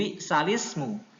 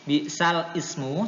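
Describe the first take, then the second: First: The vowel joins the l, making one word. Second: The two words are said separately, glottal start. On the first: The speaker calls it right. "tapi harus dibaca nakal" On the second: The speaker calls it wrong. "Ini saya baca apa adanya dulu"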